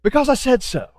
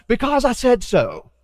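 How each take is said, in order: First: Repeated stern dad line, pitched up; a firmer second take of the dad line; dad voice again. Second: A hint of a stern father, pitched up; imitating dad. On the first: Retold or imitated. A pastor repeating his dad's tired reply to the child. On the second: A pastor mimicking his dad shutting down a child's whys. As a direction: say it like a tired dad ending the argument. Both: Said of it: "I sound just like my dad".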